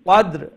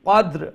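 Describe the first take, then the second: The two takes are said the same way.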